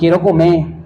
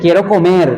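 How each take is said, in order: First: The final r of comer is dropped. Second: The final r of comer is fully pronounced. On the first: This shortened form is how people usually say it. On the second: This full form is not how people usually say it.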